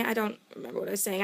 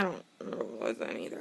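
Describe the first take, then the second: First: Said in the usual way. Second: 'either' tacked on, mumbled much lower, softer and fast; low fast mumble. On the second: Real, not acted. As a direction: throw it away under your breath, much lower and quicker. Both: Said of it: "I don't remember what I was saying either".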